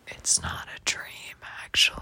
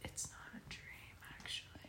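First: It is said loudly, projected to the back. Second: It is said at normal, softer volume.

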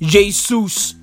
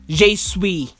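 First: The word ends with an 's' sound. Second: The word ends with an 'ee' sound. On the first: The speaker calls it wrong. "turns out I pronounced it wrong" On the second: The speaker calls it right. "I'm supposed to say Jesui"

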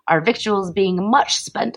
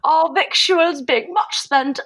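First: It is read in the speaker's ordinary accent. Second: It is read in a put-on British accent.

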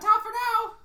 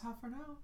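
First: It is said loudly. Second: It is said quietly.

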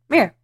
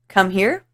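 First: The words are squeezed into one short word. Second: Both words are said fully and separately. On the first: "I say" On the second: "I don't say"

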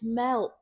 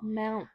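First: The word has a clear 'e' and 'l'. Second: The word sounds like 'mount' with a vocalized 'l'. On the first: The speaker calls it right. "It's melt" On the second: The speaker calls it wrong. "not mount"

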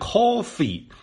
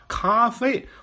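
First: It sounds like English coffee, with an 'aw' vowel. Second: It sounds like French café, with an 'ah' vowel. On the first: "我们学的英语那coffee 那念coffee" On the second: "怎么老先生怎么念咖啡呢？"

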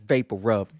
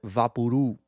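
First: The name has English sounds, ending in a b. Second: The name has Spanish-style sounds, dropping the final b. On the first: This is the original English name. The speaker calls it right. "That's vapor rub" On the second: This is how Mexican speakers commonly say it. The speaker calls it wrong. "They call it Vaporú"

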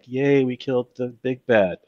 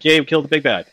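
First: It is said flatly, with low energy. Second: It is said with lively, high energy.

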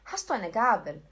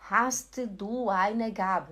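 First: The words run together without breaks. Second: Each word is said separately, with small breaks.

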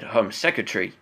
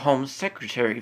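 First: It is said in a British accent. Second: It is said in a non-British accent.

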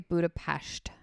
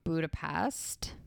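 First: The s is an sh sound. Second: The s is a plain s sound. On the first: The speaker calls it right. "I think you're supposed to say Budapest. I think it's like a sht" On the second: The speaker calls it wrong. "I know that's not how you say it"

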